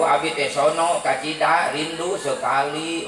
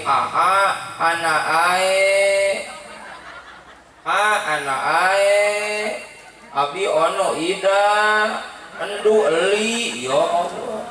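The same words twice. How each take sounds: First: Said in the usual way. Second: "ono ida, endu eli" with consonants dropped, slow and drawn out; baby lisp. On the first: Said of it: "Naon cenah teh". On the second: Pretend. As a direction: coo "anak ae" slowly in baby lisp. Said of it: "ngomongna ge cacadelan".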